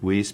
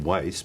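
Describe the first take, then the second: First: The name is said the family's American way. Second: The name is said the usual German way. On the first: This is how the family said their name. "I don't know why they uh, pronounced it Weiss" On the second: This is how it would usually be said in Germany. "mostly would be in Germany would be Weiss"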